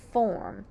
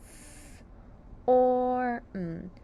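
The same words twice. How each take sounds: First: Said in the usual way. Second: "F or M." as three separate held sounds; "F or M." slowly broken into its phonemes; sounding out. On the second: Shown as a demonstration. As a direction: hiss "F", hold a level "or", then hum "M.". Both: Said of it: "Sound out form".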